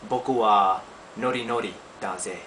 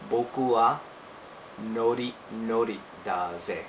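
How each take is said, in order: First: The phrase is said at normal speed. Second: The phrase is said more slowly.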